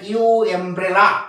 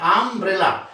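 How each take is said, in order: First: The word begins with a separate 'yoo' sound. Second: The word begins with a short 'uh' sound. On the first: The speaker calls it wrong. "এরকম বলে না ইউ এমব্রেলা" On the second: The speaker calls it right. "কিন্তু কি বলি আমব্রেলা"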